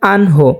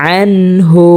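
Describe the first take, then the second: First: আনহো said with an o ending and a weak ain; the wrong way, আনহো instead of আনহু; a careless আনহো, ain not clear; common mispronunciation. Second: আনহু with a clear ain from mid-throat and a u ending; the right way, আনহু not আনহো; correct tajweed. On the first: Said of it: "অনেকে এটা পড়ে থাকেন". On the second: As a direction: recite আনহু crisply, no nasal ghunna. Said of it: "যেমন". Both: Shown as a demonstration.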